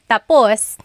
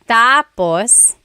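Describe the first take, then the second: First: The stress is on the last syllable. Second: The stress is on the first syllable.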